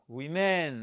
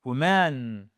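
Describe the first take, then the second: First: "women" drawn out, stressed "wi"; teacher contrasting women with woman; slow women. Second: "woman" with stressed "wu" start; teacher contrasting woman with women; model woman. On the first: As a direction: say "women" slowly as WI-min. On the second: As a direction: say "woman" as WU-mun. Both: Shown as a demonstration. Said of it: "si vous faites".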